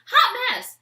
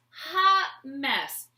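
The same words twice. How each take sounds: First: "Hot" shot up high and loud; hot mess. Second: Said in the usual way. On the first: Real, not acted. To herself about the spill, high loud exclaim.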